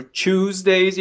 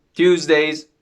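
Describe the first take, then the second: First: Tuesdays begun with a CH sound, "chooz-days"; alternative pronunciation. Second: Tuesdays begun with a T sound, "tyooz-days"; first pronunciation. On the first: Teacher offering learners another option, Tuesdays with a CH onset. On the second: Teacher listing English plural days, Tuesdays with a T onset. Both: Shown as a demonstration. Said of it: "Or Tuesdays if you prefer".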